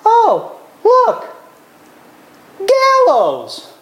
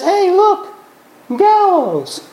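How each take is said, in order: First: A servant noticing it lightly, the last word sinking; offhand eunuch. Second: High, cheerful pointing out; a servant casually noticing, pitched high throughout; offhand eunuch. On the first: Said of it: "and he says". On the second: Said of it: "looks out a window and says". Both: Retold or imitated.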